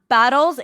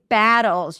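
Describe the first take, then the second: First: The first vowel sounds like the vowel in 'bottle'. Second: The first vowel is open with lips spread sideways. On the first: The speaker calls it wrong. "It's not battles" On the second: The speaker calls it right. "it's battles. You gotta drop your jaw, pull the lips to the sides"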